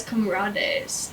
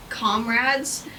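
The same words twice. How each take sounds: First: Comrades said as kom-RAH-days in a light Mexican accent. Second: Said in the usual way. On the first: Shown as a demonstration. Student misreading comrades aloud in class, light Mexican accent. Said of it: "in, like, a Mexican accent". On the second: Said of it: "the pigs would always say".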